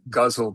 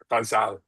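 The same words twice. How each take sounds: First: The word is said in an American style. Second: The word is said in a Persian style. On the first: "it's often pronounced in the States and I think in South Asia um, as ghazal" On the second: "in Persian, it's pronounced ghazal"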